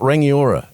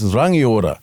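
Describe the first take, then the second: First: It is pronounced with an anglicized English pronunciation. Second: It is pronounced with a Māori pronunciation. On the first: This is the common but incorrect way. The speaker calls it wrong. "You know it's not Rangiora" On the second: This is the correct way. The speaker calls it right. "It's Rangiora"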